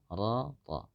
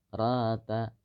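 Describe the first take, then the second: First: The syllable is thick with a rounded O-like vowel. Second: The syllable is thin with an open A vowel. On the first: The speaker calls it right. "Seharusnya ro, roto" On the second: The speaker calls it wrong. "dibaca tidak sempurna tebalnya"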